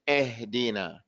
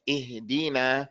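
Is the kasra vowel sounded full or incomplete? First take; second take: incomplete; full. First: The first kasra vowel is sounded incomplete. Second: The first kasra vowel is sounded full. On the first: The speaker calls it wrong. "then the Kesra is incomplete" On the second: The speaker calls it right. "instead of saying"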